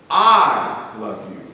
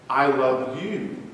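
First: The stress is on "I". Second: The stress is on "love".

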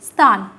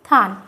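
First: The word begins with an s sound. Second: The word begins with a th sound. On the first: "শব্দটার নাম কি? স্থান।" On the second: "এটাকে এখন আমরা অনেক সময় উচ্চারণ করে থাকি থান।"

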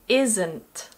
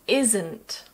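First: It is said as one contracted word. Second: It is said as one contracted word.

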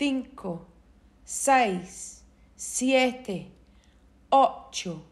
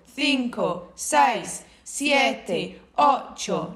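First: The numbers are counted at a slower pace. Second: The numbers are counted at a faster pace.

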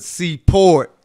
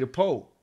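First: The R sound is clearly pronounced. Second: The R sound is dropped. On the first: "real that hard R" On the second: "you just hear people say the Pope"

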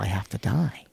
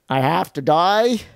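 First: It is said in the speaker's plain accent. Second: It is said in a Boston accent.

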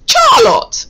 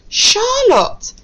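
First: The name begins with a ch sound. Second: The name begins with an sh sound. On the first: The speaker calls it wrong. "if we pronounce that as ch, it would be Charlotte. And that's not a name" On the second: The speaker calls it right. "No, it's Charlotte"

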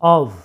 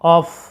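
First: The word ends with a v sound. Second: The word ends with an f sound. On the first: The speaker calls it right. "ভি দ্বারা উচ্চারণটা করা হচ্ছে অব" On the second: The speaker calls it wrong. "এটার উচ্চারণটা অফ নয়"

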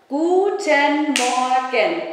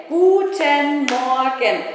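The two takes are said the same way.

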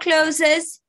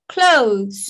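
First: The word is said as two syllables. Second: The word is said as one syllable. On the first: The speaker calls it wrong. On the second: The speaker calls it right.

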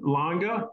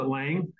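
First: The name is said with a German pronunciation. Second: The name is said with an ordinary English pronunciation. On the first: "he pronounces it German" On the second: "you normally pronounce it Lang"

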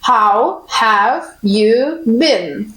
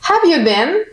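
First: Every word is said fully and slowly. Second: The words are run together and shortened. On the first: It sounds bookish, like a textbook. "Повна форма звучить дуже повільно, учбово" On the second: It sounds natural, as native speakers say it. "Натуральна форма, як кажуть нейтіви"

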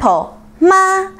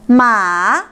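First: The syllable is said with the first tone. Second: The syllable is said with the third tone. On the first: It means mom. "with the first tone pronounced mama is mom" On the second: It means horse. "if you use the third tone, it's ma or horse"

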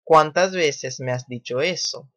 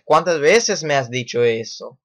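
First: It is said in a calm, even tone. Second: It is said in an upset, exclaiming tone.

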